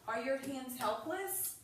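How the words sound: It is asked in a calm, innocent tone. It is just a simple question. "It sounds pretty innocent and fair"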